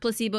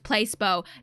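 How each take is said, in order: First: The word gets its usual, standard pronunciation. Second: The word is sounded out the way it is spelled. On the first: The speaker calls it right. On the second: The speaker calls it wrong.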